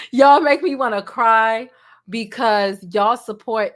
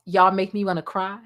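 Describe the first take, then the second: First: Louder, slower, voice thick with feeling; emotional. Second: Said in the usual way. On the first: Real, not acted. Creator thanking viewers, close to tears, louder and slower. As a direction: push through rising tears. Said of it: "Don't get me emotional".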